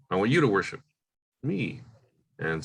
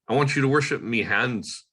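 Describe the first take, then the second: First: There is a clear pause after me before hands. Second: The words run on without a pause before hands. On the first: The speaker calls it right. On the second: The speaker calls it wrong.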